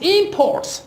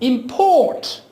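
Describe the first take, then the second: First: The stress is on the first syllable. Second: The stress is on the second syllable. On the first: It is used as a noun. "you give stress to the first syllable" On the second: It is used as a verb. "you will be giving the stress to the second syllable"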